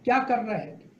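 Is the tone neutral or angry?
neutral. It is said in a neutral tone.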